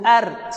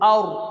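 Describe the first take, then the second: First: The r sound is light and thin. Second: The r sound is heavy and thick. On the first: The speaker calls it wrong. "kita jangan sebut ar" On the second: The speaker calls it right. "sebut aur, tebal"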